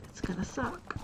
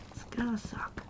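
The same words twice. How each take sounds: First: Said in the usual way. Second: Hushed whisper, voice dropped away. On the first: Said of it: "repeats line in contrast". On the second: Shown as a demonstration. Vlogger whispers a gloomy joke to viewers, hushed whisper. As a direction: whisper the repeat as an aside. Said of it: "repeats it whispered".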